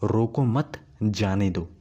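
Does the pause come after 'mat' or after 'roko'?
after mat. There is a pause after 'mat'. Do not stop them; let them go. "मतलब रोकना नहीं, उसे जाने देना है उसे।"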